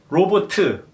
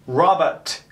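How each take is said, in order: First: It is said flat, all syllables level. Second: It is said with English stress on one syllable.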